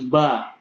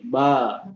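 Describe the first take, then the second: First: The vowel is held for one beat. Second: The vowel is held for two beats. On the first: "Nah ini satu harokat" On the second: "Kalau misalnya dua harokat"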